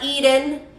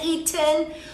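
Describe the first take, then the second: First: The T is said softly and relaxed. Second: The T is said with a firm, clear release. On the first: "o T relajada" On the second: "con la T firme"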